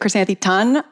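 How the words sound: The surname is said with a put-on foreign vowel. The speaker is going out of their way to sound foreign. The speaker calls it wrong. "trying to put on an accent"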